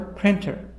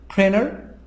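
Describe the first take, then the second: First: The T is pronounced as a clear T. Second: The T sound is dropped completely.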